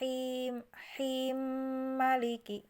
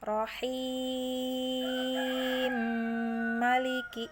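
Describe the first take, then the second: First: The vowel before maliki is held short. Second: The vowel before maliki is held very long. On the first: "yang hi-nya pendek dua harokat" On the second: "dari yang enam harokat dulu ya"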